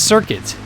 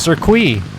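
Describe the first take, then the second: First: It is said with an English pronunciation. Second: It is said with a French pronunciation. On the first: "in English is circuit" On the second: "In French and, you know, other non-Latin linguistic languages, it's pronounced circuit"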